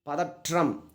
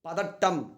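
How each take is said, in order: First: The middle consonant is a 'tr' cluster. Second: The middle consonant is a plain double t. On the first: This is the written, formal form. "எழுத்து வழக்கு" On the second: This is the spoken, colloquial form. "பதட்டம்ன்றது பேச்சு வழக்கு"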